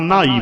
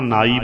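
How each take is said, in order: First: "ਨਹਾਈ" as nhaai, with a tone from the h; toned nh in "ਨਹਾਈ", meaning bathed; h after n. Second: "ਨਾਈ" as naai, plain n; plain-toned "ਨਾਈ", meaning barber; no h sound. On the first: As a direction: say "ਨਹਾਈ" with aspirated n. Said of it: "ਜੇ ਨਹਾਉਣ ਦਾ ਅਰਥ ਹੈ ਤਾਂ ਨਹਾਈ ਬੋਲਾਂਗੇ". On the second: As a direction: say "ਨਾਈ" without any h after the n. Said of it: "ਜੇ ਬਰਾਦਰੀ ਭਾਵ ਦਾ ਅਰਥ ਹੈ ਤਾਂ ਨਾਈ ਬੋਲਾਂਗੇ". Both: Shown as a demonstration.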